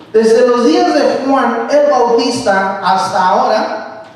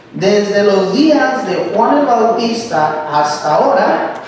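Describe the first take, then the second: Both takes have the same delivery.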